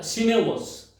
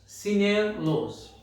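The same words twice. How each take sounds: First: সিনেলোস said slowly; slow Portuguese word. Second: সিনেলোস repeated very slowly and a bit higher; slower repeat. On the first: Teacher telling students the word for shoes, slowly. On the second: Teacher repeating সিনেলোস slowly for learners. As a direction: stretch সিনেলোস out. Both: Shown as a demonstration. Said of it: "তাই বলে দিচ্ছি".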